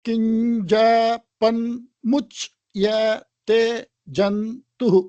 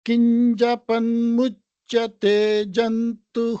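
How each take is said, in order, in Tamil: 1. இது இடைவெளிகளுடன் தனித்தனி அசைகளாகப் படிக்கப்படுகிறது. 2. இது ஒன்றாக இணைந்த ஒரு சொற்றொடராக சீராகப் படிக்கப்படுகிறது.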